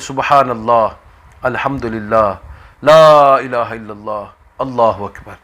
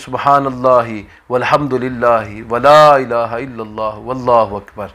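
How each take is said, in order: First: Each phrase is separated by a pause. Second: The phrases are joined without pauses.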